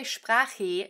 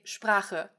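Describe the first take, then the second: First: 'Sprache' ending in a full ee sound; slow 'Sprache' mispronounced as Sprach-ee; wrong final E. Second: Slow 'Sprache' with a swallowed final e; E schwa ending. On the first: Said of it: "You don't say". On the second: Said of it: "you say Sprache". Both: Shown as a demonstration.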